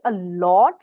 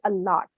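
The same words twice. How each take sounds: First: The vowel in 'lot' is a rounded 'aw'. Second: The vowel in 'lot' is an open 'ah'. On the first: The speaker calls it right. "You don't say a lot" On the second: The speaker calls it wrong. "you say a lot"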